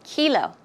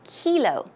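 First: The first vowel is a long E sound. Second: The first vowel is a long E sound.

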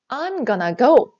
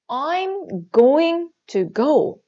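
First: The words 'going to' are reduced to 'gonna'. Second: The words 'going to' are said in full.

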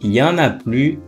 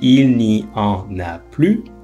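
First: The phrase is contracted, with il and ne dropped. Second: The phrase is said in full, every word pronounced.

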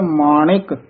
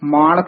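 First: An 'i' vowel follows the 'ṇ' sound. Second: No 'i' vowel follows the 'ṇ' sound. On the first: The speaker calls it right. "ਨਾਣੇ ਨੂੰ ਸਿਆਰੀ ਲੱਗੀ ਹੋਈ ਹੈ" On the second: The speaker calls it wrong. "ਮਾਣਕ ਨਹੀਂ ਕਹਿ ਦੇਣਾ"

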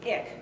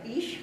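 First: It is pronounced the Dutch way. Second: It is pronounced the familiar German way. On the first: The speaker calls it right. "it's ich" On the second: The speaker calls it wrong. "instead of saying like ich, like you'd be familiar with"

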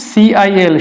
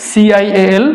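Both takes have the same delivery.

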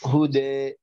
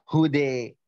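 First: The final vowel falls between 'a' and 'e'. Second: The final vowel is bent strongly toward 'ee'. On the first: "بين البينين أقول" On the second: "بالإمالة"

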